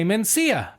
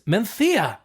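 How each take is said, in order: First: The middle consonant is a plain s sound. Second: The middle consonant is a lisped th sound. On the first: This is how English speakers read the name. The speaker calls it wrong. "as English speakers, we see the name M E N C I A, and we want to say Mencia" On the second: This is how the name is said in Spain. The speaker calls it right. "in Spain, it's Menthea, because the Spanish like to give it a good lisp"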